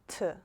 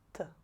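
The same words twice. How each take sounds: First: The T is said in an English-like way. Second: The T is said plain, not English-like. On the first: The speaker calls it wrong. "not T, T, not like English or in any other languages" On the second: The speaker calls it right. "just T"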